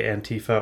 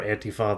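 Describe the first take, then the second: First: Antifa as an-TEE-fuh, middle syllable stressed; alternate pronunciation. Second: Antifa as AN-tee-fah, open final vowel; alternate pronunciation. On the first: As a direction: put the stress on TEE in Antifa, short last vowel. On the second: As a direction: stress the start of Antifa and end on a full fah. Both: Shown as a demonstration. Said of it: "I'll probably say Antifa or Antifa".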